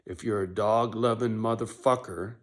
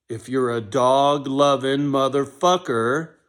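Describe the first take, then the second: First: Said in the usual way. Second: Much louder and higher, slow and drawn out; emphatic slow shout. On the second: Acted. To would-be misfits, slow rallying shout. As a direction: belt it out like a rallying call. Repeats line, second time bigger.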